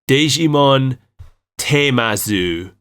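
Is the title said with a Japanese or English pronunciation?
Japanese. The title is said with Japanese-style syllables. The speaker calls it wrong. "It calls it Digimon Temazu. Spelled out in English letters"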